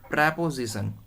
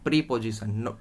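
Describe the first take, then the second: First: The first syllable has a short 'eh' vowel. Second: The first syllable has a long 'ee' vowel. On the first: The speaker calls it right. "इसे हम बोलते हैं प्रेपोजिशन" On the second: The speaker calls it wrong. "Not प्रीपोजिशन"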